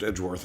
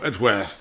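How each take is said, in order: First: The name is said in an American accent. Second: The name is said in a British accent. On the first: "Instead of" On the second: "I sometimes give him a British accent"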